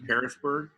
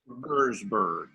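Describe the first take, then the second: First: The name is said in full, as spelled. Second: The name is shortened, with a middle syllable dropped. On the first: This is how outsiders read the spelling. The speaker calls it wrong. "they don't say it that way" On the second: This is how locals say it. The speaker calls it right. "They call it Pearsburg"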